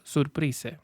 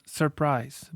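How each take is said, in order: First: "surprise" with Spanish vowels, soor-PREE-seh; "surprise" read Spanish-style, final e pronounced. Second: "surprise" drawn out, stressed on the final "prise"; English "surprise", weak "sur" and long stressed "prise"; stress on second syllable. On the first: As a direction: sound out every letter of "surprise" as in Spanish. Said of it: "En español leeríamos esta palabra". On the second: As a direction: reduce the first vowel of "surprise" to schwa, stress "prise". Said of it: "para que el acento pueda caer en pry". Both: Shown as a demonstration.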